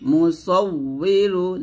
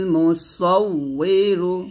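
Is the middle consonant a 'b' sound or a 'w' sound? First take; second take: w sound; w sound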